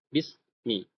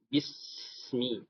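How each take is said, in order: First: The s sound is held back and cut short. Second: The s sound flows on with continuous air. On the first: The speaker calls it wrong. "Jangan sampai bismi. ... namanya syiddah, tertahan" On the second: The speaker calls it right. "maka dia ngalir"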